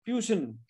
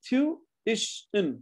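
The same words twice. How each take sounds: First: TUITION squeezed into two syllables, "tyu-shun"; Indian two-syllable version. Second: TUITION slowly split into tu, ish, un; three syllables. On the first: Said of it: "India में दो ही होते हैं". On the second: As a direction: separate all three beats of tuition. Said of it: "Tuition has three syllables". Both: Shown as a demonstration.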